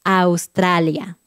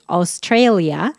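First: Slow, every vowel open in "Australia"; "Australia" with clean Spanish vowels. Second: English accent. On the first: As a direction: say "Australia" with pure Spanish A sounds, slowly. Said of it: "En español siempre suena como A". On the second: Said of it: "esa A suena diferente". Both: Shown as a demonstration.

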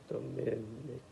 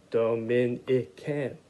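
First: A soft try at "Dominican"; sounding it out. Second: "Dominican" drawn out slowly, each syllable apart; "Dominican" said slowly as Do-mi-ni-can. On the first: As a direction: sound it out for the kids. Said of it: "That's the first syllable". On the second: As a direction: stretch "Dominican" into its four syllables for beginning readers. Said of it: "Four syllables". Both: Shown as a demonstration.

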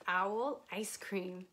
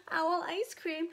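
First: Said in the usual way. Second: Higher, startled echo of the words; alarmed owl. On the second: Acted. Owl hears it is on the menu, alarmed. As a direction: repeat it in storybook alarm.

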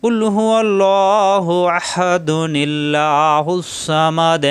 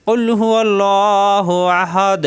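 First: Slow chant running আহাদুনিল্লাহুস together with a ni sound; recited joined. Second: Slow chanted recitation ending on আহাদ with a full stop; recited with a stop. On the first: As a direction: join the verses through the nun, no stop. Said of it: "মিলিয়ে পড়লে". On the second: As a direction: pause at আহাদ, no nun sound. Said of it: "ওয়াকফ করলে". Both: Shown as a demonstration.

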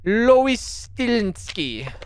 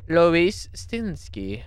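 First: Slow madame voice, higher. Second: Slow, half madame voice; lighter madame voice. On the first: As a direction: drawl the name like a madame. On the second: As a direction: repeat the name, less madame. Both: Acted. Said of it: "some kind of madame voice".

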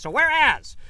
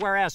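First: Whereas proclaimed loud and high; emphatic whereas. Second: Said in the usual way. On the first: Shown as a demonstration. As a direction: ring out whereas like a town crier. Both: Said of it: "read this in an old-timey voice and maybe raise a finger every time I said".

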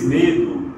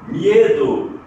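First: Said in the usual way. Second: "miedo" with a clear "ye" glide; "miedo" said MYE-do, louder; Spanish IE diphthong. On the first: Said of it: "português medo". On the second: Shown as a demonstration. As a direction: punch the ie in "miedo". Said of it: "em espanhol, ie".

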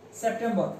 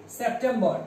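Both takes have the same delivery.

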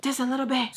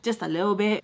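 First: Higher, pleading echo; raised-pitch repeat. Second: Said in the usual way. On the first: Retold or imitated. She asks Sam to tone it down, higher-pitched repeat.

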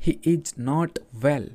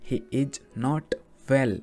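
First: Each word said slowly and evenly; slow dictation. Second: "He is not" then a pause, then "well" set apart and falling; pause before well. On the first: Teacher reading a sentence slowly to Hindi learners. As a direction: read it slowly for learners to repeat. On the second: Teacher sets apart "well" to explain its meaning. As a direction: hold back, then land on "well". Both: Shown as a demonstration. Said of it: "अब यहाँ पर जो well आया है".

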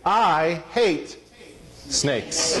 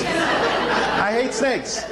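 First: Said in the usual way. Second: "I hate snakes" stretched out slow and higher, each word leaned on with a chuckle; a slow, higher mock-vow of "I hate snakes"; slow emphatic declaration. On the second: Shown as a demonstration. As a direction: drag out "hate" and land "snakes" with a laugh.

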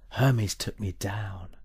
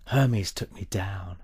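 Both takes have the same delivery.

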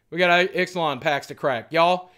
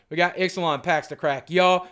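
The two takes are said the same way.

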